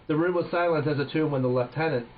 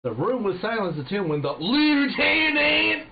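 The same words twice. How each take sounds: First: "lieutenant" pronounced the British way, as LEF-tenant. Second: "lieutenant" as loud, high, hammed-up American LOO-tenant. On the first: Real, not acted. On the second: Shown as a demonstration. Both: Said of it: "I have to say this in American".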